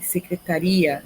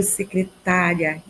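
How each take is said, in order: First: "secretaria" stressed on the I, secreta-RI-a. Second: "secretária" stressed on TÁ, light -ria. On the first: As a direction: hit the RI in "secretaria". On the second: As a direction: hit the TÁ in "secretária". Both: Shown as a demonstration. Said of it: "esquecer o acento".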